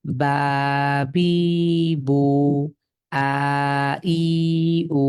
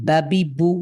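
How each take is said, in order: First: বাবি dragged out very slow, each vowel stretched long; wrong drawn-out reading. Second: "বাবি বু" read short and quick, no vowel stretch; quick crisp reading. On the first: Teacher to students, showing the mistake: slow drag. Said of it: "অনেকে দেখবেন এটা উচ্চারণ করতে কি করবে". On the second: Teacher to students, the correct way: short, quick. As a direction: clip "বাবি বু" short, no drawl. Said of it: "দ্রুত পড়তে হবে". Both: Shown as a demonstration.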